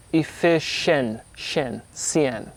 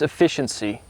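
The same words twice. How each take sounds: First: "efficien-, shen, cien" drawn out slowly, one syllable at a time. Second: Said in the usual way. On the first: Shown as a demonstration. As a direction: break up "efficien-, shen, cien" with pauses, isolating the stressed syllable. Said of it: "So you're emphasizing, what, what syllable". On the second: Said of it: "So you're emphasizing".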